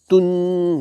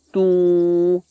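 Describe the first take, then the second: First: The ending has a clear, separate n sound. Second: The n sound is merged into the next word. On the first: The speaker calls it wrong. "It's not tun" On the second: The speaker calls it right. "No, it's tu. Gunna"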